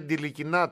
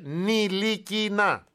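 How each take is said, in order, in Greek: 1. Το όνομα αρχίζει με ήχο Ντ. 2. Το όνομα αρχίζει με απλό ήχο Ν. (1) "Δεν λέγεται Ντιλικινά, το ταφ δεν διαβάζεται" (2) "Λέγεται Νιλικινά"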